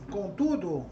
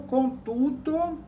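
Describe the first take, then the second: First: Said in the usual way. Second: Contudo said slowly and higher, stretched out; drawn-out contudo. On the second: Shown as a demonstration. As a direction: stretch out contudo to show the rhyme. (contudo alongado e mais agudo) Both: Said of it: "rimando com seu telefone está mudo".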